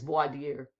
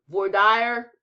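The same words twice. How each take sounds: First: It is given the standard pronunciation. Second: It is given a local Texan pronunciation. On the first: The speaker calls it right. "I think it's voir dire" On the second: The speaker calls it wrong. "that I'm sure is not how you pronounce it, but I'm from Texas"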